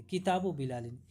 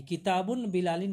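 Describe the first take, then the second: First: किताब ending in short u, no n, before बिलालिन; no tanween. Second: किताबुन with a sounded n before बिलालिन; wrong tanween. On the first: Teacher gives students the correct possessive, किताब without tanween, lower. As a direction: say किताब as "kitabu", running into बिलालिन. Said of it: "किताबुन बिलालिन नहीं बोलेंगे". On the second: Teacher shows the wrong possessive to students, किताबुन with tanween. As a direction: add -un to the first word, किताबुन. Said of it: "नहीं बोलेंगे". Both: Shown as a demonstration.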